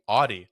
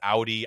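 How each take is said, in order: First: Audi is said with the American pronunciation. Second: Audi is said with its original pronunciation. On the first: The speaker calls it wrong. "they say Audi... mispronounce it because in America that's just the way we say it" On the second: The speaker calls it right. "an Audi is Audi. I do know that"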